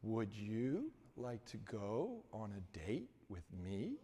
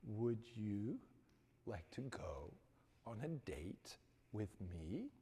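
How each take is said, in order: First: Clearest voice. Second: Clear, quiet ask. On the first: Johnny asks the campus beauty out without a stammer. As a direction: ask it cleanly, every word even. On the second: Johnny repeats his question to the stunned girl without stammering. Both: Retold or imitated. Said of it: "with the most clearest voice".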